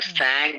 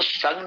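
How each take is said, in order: First: The vowel sounds like the one in cat. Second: The vowel sounds like the one in cut. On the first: The speaker calls it right. "सैंग बोलना है" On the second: The speaker calls it wrong. "इसको संग नहीं बोलना है"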